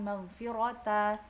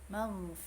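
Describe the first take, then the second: First: The word ends with a t and vowel. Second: The word ends with a breathy h sound. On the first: The speaker calls it wrong. "bukan maghfirata" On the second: The speaker calls it right. "tapi maghfirah"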